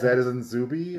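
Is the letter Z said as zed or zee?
zed. The letter is said the British way, zed.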